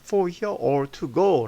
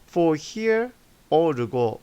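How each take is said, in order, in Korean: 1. 'to'의 t는 분명한 t 소리입니다. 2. 'to'의 t는 부드러운 탄설음입니다. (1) "라고 발음 안 하고요" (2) "이 to를 갖다가 t 발음이 어, 어, 연음 법칙에 의해서 리을 발음으로 변하게 됩니다. 약화되는 거죠. 그래서 for here or to go 라고 발음합니다"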